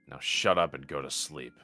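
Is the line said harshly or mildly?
harshly. The line is said harshly, with a biting edge. The speaker calls it right. "There you go"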